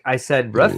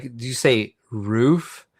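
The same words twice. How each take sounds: First: Roof said short, like "ruff"; regional pronunciation. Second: Roof with a long "oo", said slowly; standard pronunciation, drawn out. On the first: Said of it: "What did you just say?". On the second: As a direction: slowly query roof with a stretched "oo". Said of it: "They're like". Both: Retold or imitated.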